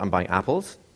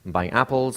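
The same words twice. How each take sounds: First: The pitch moves up and down, not level. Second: The pitch stays level all the way through. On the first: The speaker calls it wrong. "It's not" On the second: The speaker calls it right. "A statement is usually a flat tonality"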